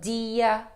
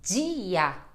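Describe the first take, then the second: First: The d sounds like a plain hard 'd'. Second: The d sounds like a soft 'j'. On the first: "com som de D" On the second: "Olha só este som, né, de di"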